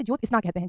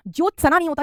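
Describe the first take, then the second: First: ज्योत्सना as "jyot-isna"; correct pronunciation. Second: ज्योत्सना as "jyot-sa-na"; full a between s and n in ज्योत्सना; wrong pronunciation. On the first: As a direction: join s and n in ज्योत्सना. (सही उच्चारण, ज्योत्सना में आधा स) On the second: (गलत उच्चारण, ज्योत्सना में स पूरा) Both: Shown as a demonstration.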